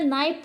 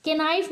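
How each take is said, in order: First: नाइफ starting on the N; silent K. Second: के नाइफ with K sounded before the N; wrong pronunciation. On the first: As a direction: drop the K entirely in नाइफ. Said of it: "नाइफ पढ़ते हैं". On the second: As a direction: add a "ke" syllable to start के नाइफ. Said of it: "नहीं पढ़ते हैं". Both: Shown as a demonstration.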